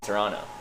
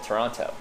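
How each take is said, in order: First: The second T is dropped. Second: The second T is clearly pronounced. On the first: The speaker calls it right. "You don't say the second T" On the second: The speaker calls it wrong. "you said the second T"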